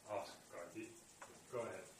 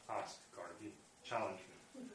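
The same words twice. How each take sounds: First: Quiet, unhurried invitation; calm. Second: Said in the usual way. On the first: Acted. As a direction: calmly let her go ahead, no pressure. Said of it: "very calmly". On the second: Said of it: "Yajnavalkya says".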